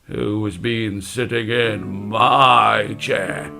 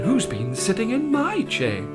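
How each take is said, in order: First: It is said in a deep, gruff voice. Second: It is said in a polite voice. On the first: "in his deep gruff voice" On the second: "in a polite voice"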